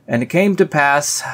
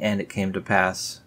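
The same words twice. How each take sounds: First: High, loud "And it came to pass"; mock exasperation. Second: Said in the usual way. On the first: Shown as a demonstration. Fed up with the repeated phrase, loud mock outburst. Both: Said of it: "stop saying".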